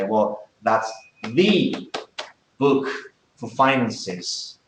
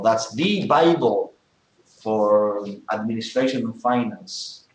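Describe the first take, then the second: First: Very slow, with "the" stressed as "thee" and "book" hit; emphatic "thee". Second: Slow, with "the" stressed as "thee" before "Bible"; emphatic "thee". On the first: Teacher showing the emphatic article with a book. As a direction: draw out "the" and punch "book". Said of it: "and you say". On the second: Teacher giving a second emphatic example. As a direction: stretch out "the" and lift "Bible". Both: Shown as a demonstration.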